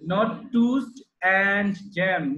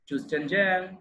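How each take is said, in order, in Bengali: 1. 'And' পুরোপুরি, স্পষ্ট স্বরধ্বনি সহ বলা হয়। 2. 'And' একটি ছোট, দুর্বল ধ্বনিতে সংকুচিত হয়ে যায়। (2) "যখন আমরা ই করি সেন্টেন্সে বলি তখন হয়ে যাবে কি toast and jam"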